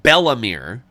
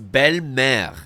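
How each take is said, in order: First: The name is said with an English-style pronunciation. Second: The name is said with a French pronunciation. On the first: It is treated as an ordinary name. The speaker calls it wrong. "they call her Bellamere because they thought that it was a name" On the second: It means beautiful mother. The speaker calls it right. "it's Belle-Mère, which means good mother"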